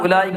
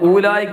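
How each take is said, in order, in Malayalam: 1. ആദ്യ സ്വരം ചെറുതാണ്, ഡിഫ്തോങ് ഉണ്ട്. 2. ആദ്യ സ്വരം നീണ്ടതാണ്, ഡിഫ്തോങ് വേർപിരിഞ്ഞതാണ്. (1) "സാധാരണ ഉലൈക എന്ന് തന്നെയാണ്" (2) "ഊലായിക്ക എന്ന് വായിക്കാറില്ല നമ്മൾ"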